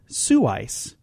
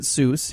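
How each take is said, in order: First: The name has a vowel rhyming with voice. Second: The name has one syllable rhyming with goose. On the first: The speaker calls it right. "He pronounced it Sue-Ice" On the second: The speaker calls it wrong. "He did not pronounce it Seuss"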